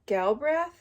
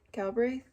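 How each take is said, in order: First: Galbraith said as kal-brah, rising; unsure pronunciation. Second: Galbraith said as kal-bray, questioning; second try pronunciation. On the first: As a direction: Galbraith ending in a short "a", unsure rise. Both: Shown as a demonstration.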